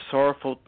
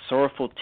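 The two takes are said the same way.

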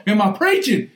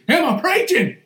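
First: Said in the usual way. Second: The question thrown again, higher; a playful higher echo; higher repeat. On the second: Real, not acted. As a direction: ask it again, higher and teasing.

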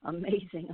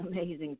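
First: Said in the usual way. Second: Laughing through the words. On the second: Real, not acted. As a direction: chuckle while saying it. Laughs through the repeated word.

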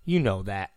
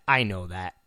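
First: Said in the usual way. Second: Dropped low and soft, I know that; low answer. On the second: Acted. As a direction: answer yourself under the breath.

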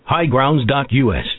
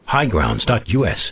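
Both takes have the same delivery.

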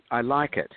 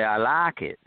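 First: Said in the usual way. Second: Lightly Southern twang on LIKE; Southern accent. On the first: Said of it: "and I said". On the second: Retold or imitated. Director adopts the crew's way, light Southern accent. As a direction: say LIKE with a Southern open vowel, "laak". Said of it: "from then on, I'd say".

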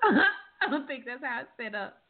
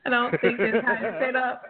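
First: Said through a laugh. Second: Said in the usual way. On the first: Real, not acted. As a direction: laugh while repeating it.

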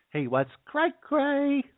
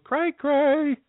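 First: Very slow, high-pitched CRAY CRAY; exaggerated comic slang. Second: High, drawn-out CRAY CRAY; comic singsong slang. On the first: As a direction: drag CRAY CRAY out high and silly. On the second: Pretend. Clowning on slang for crazy.

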